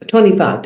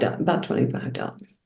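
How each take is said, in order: First: Said in the usual way. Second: Breathy whisper of the price; whispered aside. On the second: Real, not acted. Repeating the bill to a friend, whispered. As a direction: drop to a whisper for the total.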